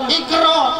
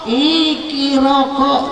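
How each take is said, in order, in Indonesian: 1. Diucapkan dengan cara Arab, pendek dan tegas. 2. Diucapkan dengan cara Jawa, dengan tambahan vokal. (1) "Orang baca Iqra" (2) "dia baca Ikiraka kata dia"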